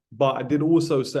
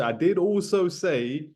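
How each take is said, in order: First: Said in the usual way. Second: Slow, higher "did" with a rising end; "I did also say", rising on "did"; stress on did. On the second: Shown as a demonstration. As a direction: lean on "did" slowly.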